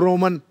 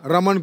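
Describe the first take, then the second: First: The first vowel is a rounded 'o' sound. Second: The first vowel is an open 'a' sound.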